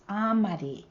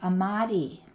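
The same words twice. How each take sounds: First: The stress is on the first syllable. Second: The stress is not on the first syllable. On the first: This is the Concow form. "with the stress on the first part of the word" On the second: This is the Mountain Maidu form. "in Mountain Mighty, we have amadi"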